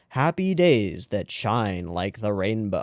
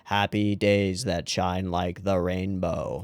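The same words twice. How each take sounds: First: It is read with noticeable emotion. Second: It is read flat, without emotion. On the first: "I'm actually putting more more emotion into them" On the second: "So monotone"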